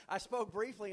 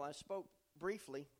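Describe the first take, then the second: First: Laughing. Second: Said in the usual way. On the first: Shown as a demonstration. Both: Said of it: "That's a miracle, isn't it?".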